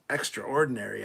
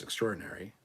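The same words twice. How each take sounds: First: "extraordinary" as louder "EXTRA-ORdinary", in two parts; emphatic pronunciation. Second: "extraordinary" run together as "ek-STROR-dinary"; usual pronunciation. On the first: Streamer shows it for something amazing, emphatic pronunciation. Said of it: "if something was extraordinary and amazing". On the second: Streamer explains the everyday version, usual pronunciation. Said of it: "it's just extraordinary". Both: Shown as a demonstration.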